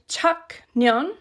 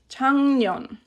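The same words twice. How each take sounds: First: The first syllable ends in a k sound. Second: The first syllable ends in an ng sound. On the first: The speaker calls it wrong. "It's not said 작년" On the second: The speaker calls it right. "It kind of all glides together and becomes 작년"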